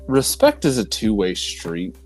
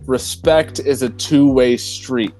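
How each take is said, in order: First: It is said at a normal speaking volume. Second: It is said noticeably louder than normal.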